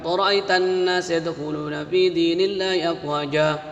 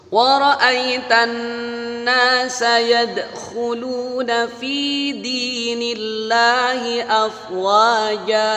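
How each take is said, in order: First: It is recited quickly with sounds run together. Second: It is recited carefully with each sound clear. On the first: The speaker calls it wrong. "agak cepat" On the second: The speaker calls it right. "makhrajnya benar"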